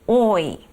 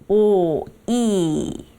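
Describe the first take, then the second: First: The vowels glide together in one syllable. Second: The vowels are split into two syllables. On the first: The speaker calls it right. "미끄러지듯이 연결해서 오이 하고 발음하시면 돼요" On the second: The speaker calls it wrong. "우리말처럼 오, 이 이렇게 이음절로 발음하시면"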